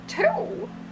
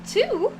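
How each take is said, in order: First: It is said in a younger woman's voice. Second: It is said in an old woman's voice. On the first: The speaker calls it wrong. "Trying to go from Vera's voice to uh, the old lady voice is, is kind of difficult" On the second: The speaker calls it right. "the old lady voice"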